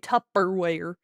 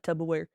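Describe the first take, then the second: First: The middle consonant sounds like a crisp p. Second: The middle consonant sounds like a soft b. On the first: The speaker calls it right. "it's supposed to be a P" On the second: The speaker calls it wrong. "I definitely say it with a tub, like it's a tub of stuff"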